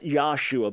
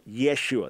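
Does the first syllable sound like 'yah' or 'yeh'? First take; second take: yah; yeh. First: The first syllable sounds like 'yah'. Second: The first syllable sounds like 'yeh'. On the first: The speaker calls it wrong. "Not Yahshua" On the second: The speaker calls it right. "but Yeshua"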